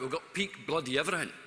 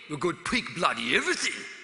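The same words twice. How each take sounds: First: It is said in the speaker's normal accent. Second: It is said in a put-on Australian accent.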